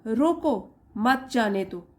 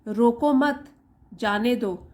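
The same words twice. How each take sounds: First: "रोको" held and set apart, then "मत जाने दो" together; pause after रोको. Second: "रोको मत" said as one unit, a break, then "जाने दो"; pause after मत. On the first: Teacher shows how a moved comma flips meaning, pause after रोको. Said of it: "यहाँ पे रुकेंगे हम". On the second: Teacher shows learners where the comma falls, pause after मत. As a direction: break after मत, letting "जाने दो" stand apart. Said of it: "हम यहाँ पे पॉज देंगे". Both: Shown as a demonstration.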